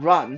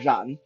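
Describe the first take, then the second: First: The word sounds like the English word 'run'. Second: The word sounds unlike the English word 'run'. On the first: The speaker calls it wrong. "not run" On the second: The speaker calls it right. "but Ran"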